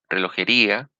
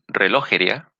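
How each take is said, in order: First: The stress is on the fourth syllable, ri. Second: The stress is on the second syllable, lo. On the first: "o en la I" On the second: "en la O"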